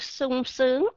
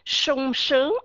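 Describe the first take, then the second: First: Each word begins with a plain s sound. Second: Each word begins with an sh sound. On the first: Both Northern and Southern speakers say it this way. "âm S á, chúng ta nói cái chữ sung sướng" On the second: Some Southern speakers say it this way. "người miền Nam sẽ nói cái âm S ở trong tiếng Việt đó bằng cái âm ét hát"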